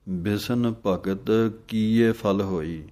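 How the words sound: The third and fourth words run together. The speaker calls it wrong. "ਕੀ ਇਹ ਪਾਠ ਇਕੱਠਾ ਵੀ ਆਉਂਦਾ ਹੈ, ਉਹ ਦੋ ਨੰਬਰ ਪਾਠ ਹੈ"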